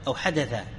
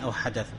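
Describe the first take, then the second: First: The last word ends with a long 'a' vowel. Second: The last word ends with no vowel after it. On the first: This is the form the grammar would normally require. "العطف يقتضي أن يقول ماذا؟" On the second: This is a regional dialect way to pause on the word. "لكنه وقف على السكون"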